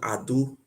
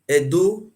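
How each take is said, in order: First: The word begins with an 'ah' vowel. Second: The word begins with an 'eh' vowel. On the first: The speaker calls it right. "the right pronunciation is called Ado" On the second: The speaker calls it wrong. "Edo doesn't have meaning"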